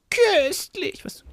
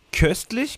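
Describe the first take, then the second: First: Very high, drawn-out squeal of köstlich; Salim voice. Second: Said in the usual way. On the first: Retold or imitated. Photographer quoting Salim's catchword under a message, high Salim voice. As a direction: stretch köstlich out in a high put-on voice. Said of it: "Salim Voice". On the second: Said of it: "ganz normal geschrieben".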